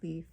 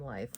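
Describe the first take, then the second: First: The vowel is a long 'ee' sound. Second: The vowel is an 'eye' sound. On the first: This is how most English speakers say the name. "I'll say it how everybody else would say it" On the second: This is the Norwegian way the family says the name. "which is the Norwegian pronunciation"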